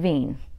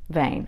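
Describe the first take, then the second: First: The vowel sounds like 'ee'. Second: The vowel sounds like 'ay'. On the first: The speaker calls it wrong. "You don't say veen" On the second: The speaker calls it right. "how do you pronounce V E I N? Vein"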